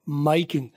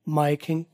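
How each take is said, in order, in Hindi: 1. 'My' को उसके पूरे डिफथॉन्ग के साथ बोला जाता है। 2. 'My' थोड़ा हल्का किया जाता है, पूरा लंबा नहीं खींचा जाता। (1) "और सबसे कम माई किंग" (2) "उससे कम बोला जाता है माई किंग"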